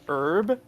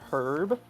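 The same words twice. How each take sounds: First: It is said in an American accent. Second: It is said in a British accent.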